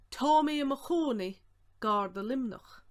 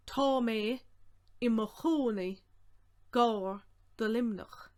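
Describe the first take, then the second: First: Said in the usual way. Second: Projected, in short separate chunks; deliberate phrasing with pauses; slow breakdown. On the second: Shown as a demonstration. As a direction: break it up slowly for learners.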